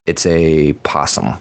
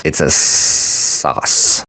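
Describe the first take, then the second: First: Said in the usual way. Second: Slow breathy whisper of the line. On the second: Pretend. Muttering a pun to the listeners, slow whisper. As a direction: hush it out slowly, almost no voice. Wordplay on possum sauce.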